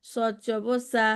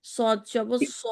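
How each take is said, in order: First: সদ জবর সা with a thin open সা like sin; the common mistake of a light সা for sad; সদ জবর সা said thin, like সিন জবর সা; wrong thin sad. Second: সদ জবর স with a thick, rounded স; সদ জবর স with a heavy, rounded vowel; heavy sad. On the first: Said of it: "অনেকে করে কি এরকম পড়ে ফেলে". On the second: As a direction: make the স of সদ thick and dark. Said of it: "এরকম ভিন্ন হবে উচ্চারণগুলি". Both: Shown as a demonstration.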